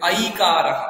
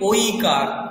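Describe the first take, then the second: First: The first vowel is said like 'ai'. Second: The first vowel is said like 'oi'. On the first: This is how it should be said here. The speaker calls it right. "এখানে বলতে হবে আইকার" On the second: This is the Bengali way of saying it. The speaker calls it wrong. "আমরা বাংলাতে কি বলি"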